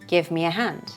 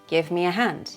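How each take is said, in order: No difference in how they are said.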